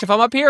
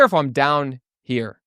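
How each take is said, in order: First: Raised up into a higher register; high pitch. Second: Dropped down, slower and lower; low pitch. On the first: Coach demonstrating pitch to students, up high. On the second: Coach demonstrating pitch to students, down low. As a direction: sink the pitch down. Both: Shown as a demonstration. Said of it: "We're gonna talk about pitch".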